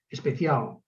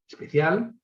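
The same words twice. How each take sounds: First: The final L is a dark velar sound. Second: The final L is a light alveolar sound. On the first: "el alófono velar" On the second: "el alófono alveolar"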